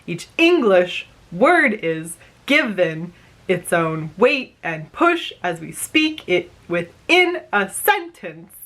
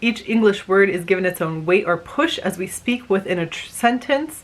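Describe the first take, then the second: First: Each word is pushed with exaggerated, heavy stress. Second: It is spoken with natural, ordinary stress.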